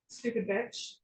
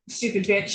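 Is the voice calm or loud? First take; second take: calm; loud. First: It is said in a calm, normal voice. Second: It is said loud and antagonizing. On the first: "you're saying stupid bitch" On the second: "it's not a normal tone of voice"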